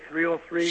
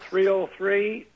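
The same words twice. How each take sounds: First: The number is said at normal speed. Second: The number is said more slowly.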